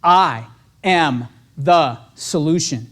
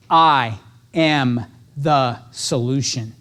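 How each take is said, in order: First: Slow, low and deliberate; affirmation. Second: Very slow, low mantra; self affirmation. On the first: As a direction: say it slowly like a mantra. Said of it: "Write that one down". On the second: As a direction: speak it slowly to yourself before the call. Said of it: "first thing I say to myself". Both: Shown as a demonstration.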